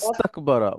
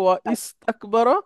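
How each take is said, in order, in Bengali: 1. i স্বরধ্বনি ছাড়া শব্দ দুটো একসাথে মিশে যায়। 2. i স্বরধ্বনিটি আলাদা একটি শব্দ হিসেবে উচ্চারিত হয়। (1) "আগে কিছু থাকলে ওয়াসলার উচ্চারণ হয় না" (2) "মূলত হচ্ছে"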